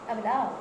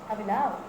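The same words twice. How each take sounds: The two takes are said the same way.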